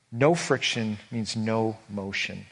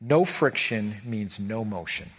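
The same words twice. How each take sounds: First: Slow, weighty, both NO stressed again; driving the point home, measured; slow emphatic repeat. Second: Slow, weighty, each NO stressed; sermon punchline, deliberate and heavy; slow emphatic line. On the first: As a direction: restate "No friction means no motion" slowly, same weight. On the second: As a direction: land "No friction means no motion" slowly, hitting both NO. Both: Acted. Repeated key line.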